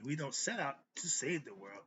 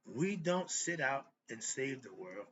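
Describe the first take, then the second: First: Said in the usual way. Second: "sit out and save" said slowly by mistake; a slow slip of the tongue, "sit out and save"; misspoken slip. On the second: Real, not acted. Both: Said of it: "Excuse me".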